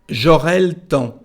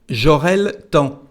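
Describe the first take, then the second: No difference in how they are said.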